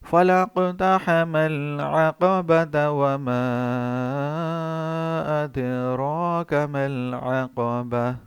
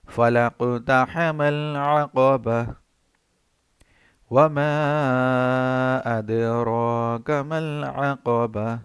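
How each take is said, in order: First: The two verses run together without a pause. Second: The two verses are separated by a pause.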